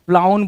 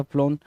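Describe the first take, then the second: First: FLOWN misread as फ्लाउन, rhyming with clown; misspelt reading. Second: फ्लोन with a long "oh", rhyming with grown; correct pronunciation. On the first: Teacher reads out the wrong spelling to students, misreading फ्लाउन with "ow". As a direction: say फ्लाउन with an "ow" vowel. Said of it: "फ्लाउन नहीं होगा जी". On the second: Teacher gives students the right word, फ्लोन with a long "oh". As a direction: say फ्लोन with an "oh" vowel. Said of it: "फ्लोन होना था". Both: Shown as a demonstration.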